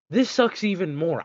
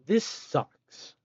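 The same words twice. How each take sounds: First: Exasperated, louder and more fed up; louder frustrated. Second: Grumbling, fed up; flat complaint of frustration; annoyed. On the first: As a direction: let the frustration boil over. Frustration escalates at recipe. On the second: Frustrated by crafting recipe. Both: Real, not acted.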